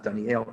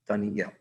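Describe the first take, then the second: First: The last syllable is a plain el, Dani-el. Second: The last syllable starts with y, Dani-yel. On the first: The speaker calls it wrong. "the name is not Daniel" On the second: The speaker calls it right. "it's Daniel"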